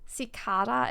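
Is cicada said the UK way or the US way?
UK. The word is said the British way. "how they say it in the U K"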